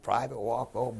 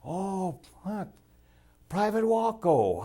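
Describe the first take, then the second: First: Said in the usual way. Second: High, slow, drawn-out friendly hello; mock-cheery stranger calling Private Wacko; friendly greeting. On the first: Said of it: "You know, Private". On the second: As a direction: greet him like an old pal, pitched way up. Friendly Dutchman greeting the narrator.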